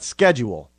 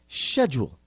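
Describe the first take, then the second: First: The word is said in a non-British way. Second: The word is said in a British way. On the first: The speaker calls it wrong. "not schedule" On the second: The speaker calls it right. "properly pronounced in the in the Queen's English as schedule"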